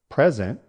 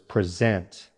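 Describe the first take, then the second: First: The stress is on the first syllable. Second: The stress is on the second syllable. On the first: It is a noun. "the noun" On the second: It is a verb. "the verb. Stress on the second syllable"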